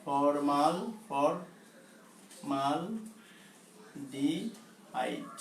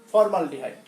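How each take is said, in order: First: formaldehyde very slow and soft, in spaced syllables; slow dictation. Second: Said in the usual way. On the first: Shown as a demonstration. Teacher dictating a long chemical name to students, slow dictation. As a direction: break formaldehyde into long, low-key pieces. Teacher sounds out the term slowly.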